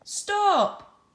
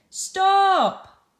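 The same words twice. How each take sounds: First: High, loud shouted Stop. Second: High, loud shout of Stop. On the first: Teacher acting Bob in a class example, shouting. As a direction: call out Stop sharply. Teacher voices Bob's exclamation. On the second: Teacher acting Bob for pupils, loud shout. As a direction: yell Stop to halt him. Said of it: "exclamation mark here and how Bob said it". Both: Shown as a demonstration.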